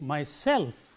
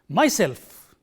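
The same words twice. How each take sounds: First: The stress is on the second syllable. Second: The stress is on the first syllable. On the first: The speaker calls it right. "The stress is on self itself" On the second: The speaker calls it wrong. "It is not myself"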